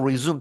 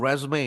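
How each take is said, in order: First: It is said as the verb, with no final vowel. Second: It is said as the noun, ending in 'ay'. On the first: It means to start again. "동사로 resume 다시 시작하다" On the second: It means a CV. "이렇게 발음하면 이제 이력서가 되겠습니다"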